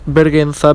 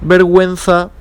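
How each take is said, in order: First: The u after the g is silent. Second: The u after the g is pronounced. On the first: The speaker calls it wrong. "not vergüenza" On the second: The speaker calls it right. "we know it because of the two points"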